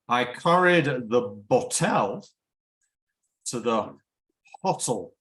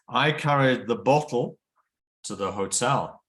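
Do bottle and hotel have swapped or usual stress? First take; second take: swapped; usual. First: Bottle and hotel have their stress patterns swapped. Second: Bottle and hotel have their usual stress patterns. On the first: The sentence is hard to understand. The speaker calls it wrong. "mistakes in word stress are a common uh, cause of misunderstanding" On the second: The sentence makes sense. The speaker calls it right. "if I reverse the sentence patterns for the two words, you should be able to make sense of the sentence"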